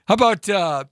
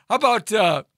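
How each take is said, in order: Both takes have the same delivery.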